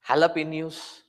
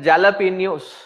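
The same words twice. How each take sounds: First: The J is said like an H sound. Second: The J is said like an English J. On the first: This is how speakers actually say it. "but pronounce it as jalapenos" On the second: This is how the spelling looks. "They will write it as jalapenos"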